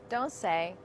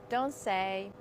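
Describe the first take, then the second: Both takes have the same delivery.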